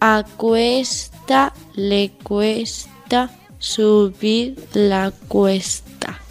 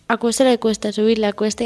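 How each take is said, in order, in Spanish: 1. Se dice despacio. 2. Se dice a velocidad normal. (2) "Velocidad normal"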